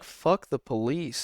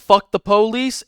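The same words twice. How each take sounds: First: It is said in a sensual, flirty tone. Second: It is said in an aggressive, defiant tone.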